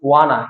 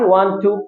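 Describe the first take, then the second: First: The words are reduced into one syllable pair. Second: Both words are said fully and separately. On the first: "ওয়ান টু কে আমরা বলবো ওয়ানা" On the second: "আমাদের দেশে আমরা সাধারণত বলে থাকি"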